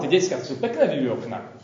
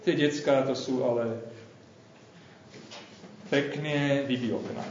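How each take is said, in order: First: The tone sounds impressed and admiring. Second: The tone sounds weary and exasperated. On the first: The kids are impressive. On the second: The kids are a nuisance. "ach jaj"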